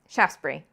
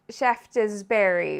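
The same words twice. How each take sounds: First: The word is squeezed into two syllables. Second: Every syllable of the word is pronounced. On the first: The speaker calls it right. "Just two syllables, really" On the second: The speaker calls it wrong. "we want to pronounce every syllable"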